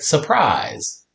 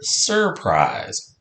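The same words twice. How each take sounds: First: The first syllable has no r sound. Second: The first syllable has an er sound. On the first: The speaker calls it wrong. "a lot of times people say surprise" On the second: The speaker calls it right. "it's actually the word surprise"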